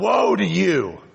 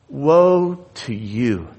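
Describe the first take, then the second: First: It is said in a harsh, condemning tone. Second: It is said in a sorrowful, compassionate tone. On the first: The speaker simply condemns those addressed. The speaker calls it wrong. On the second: The speaker grieves over those addressed. The speaker calls it right.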